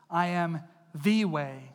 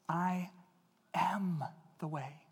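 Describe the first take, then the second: First: The word 'the' carries the strongest stress. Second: The word 'I' carries the strongest stress. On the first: Only this way is valid, against other claims. The speaker calls it wrong. "We focus in evangelical circles a lot of times when we say this verse on the. We say it like this" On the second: A personal, generous invitation to come to him. The speaker calls it right. "I don't think he said it that way. I think he said this"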